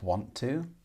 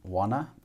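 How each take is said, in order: First: The words are said fully and separately. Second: The words are reduced and run together.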